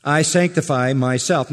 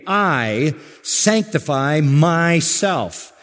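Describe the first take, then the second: First: Said in the usual way. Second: "I" and "myself" weighted, each drawn out slowly; emphasis on I, myself. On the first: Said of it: "this is as emphatic as a statement can be". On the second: Shown as a demonstration. Preacher showing how emphatic Jesus' statement is, slow stress on "I" and "myself". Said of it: "Emphasis, not so much on the sanctification as on the I, myself".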